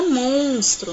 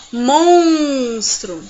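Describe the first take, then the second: First: Said in the usual way. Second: MONSTRO with a long, loud nasal ON; nasal sound demo. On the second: Shown as a demonstration. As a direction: stretch the nasal in MONSTRO slowly. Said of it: "O som da palavrinha".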